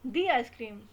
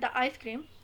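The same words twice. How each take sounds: First: 'The' is said with a long 'ee' vowel. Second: 'The' is said with a short 'uh' vowel. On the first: The speaker calls it right. "जो vowel sound आ रहे होंगे उसके साथ हम दी का use करेंगे" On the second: The speaker calls it wrong. "ये बिल्कुल गलत होता है"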